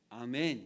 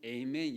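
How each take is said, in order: First: The word begins with an open 'ah' vowel. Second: The word begins with an 'ay' diphthong. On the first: "이렇게 하는 거잖아요" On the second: "영어로는 에이멘 이렇게도 하고"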